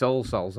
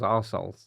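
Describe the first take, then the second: First: "All Souls" with the L sounded in All; "All Souls", first word as all. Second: "Our Souls" with All turned into Our; "Our Souls", lower, first word as our. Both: Shown as a demonstration. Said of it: "I always read that as Our Souls".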